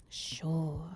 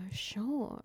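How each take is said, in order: First: Breathy skeptical whisper; teasing hushed sure; whispered tease. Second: Said in the usual way. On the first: Acted. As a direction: whisper it like you don't believe them. Teasing, mock-doubting reply.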